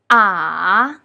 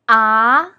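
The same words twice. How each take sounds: First: It is said with the third tone. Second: It is said with the second tone. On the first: "With the third tone" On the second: "With the second tone"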